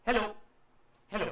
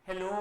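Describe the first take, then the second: First: Two short "hello", a clear gap between; separate echo hellos. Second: "hello" with a long, held final "ओ"; stretched last syllable. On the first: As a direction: say "hello" short, pause, repeat it. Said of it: "पहला जो situation था वो क्या हुआ". (दो छोटे, अलग-अलग "hello") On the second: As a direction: let the end of "hello" drag on as reverberation. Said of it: "जो लास्ट चीज थी वो खिंच गई". ("हेलो" का "ओ" लंबा खींचकर) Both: Shown as a demonstration.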